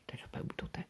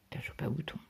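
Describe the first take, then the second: First: Soft breathless mimic of the husband; mocking echo. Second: Said in the usual way. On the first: Wife mocks husband's offhand diagnosis, soft and whispered. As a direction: echo his shrug under your breath. Repeats husband's dismissive words.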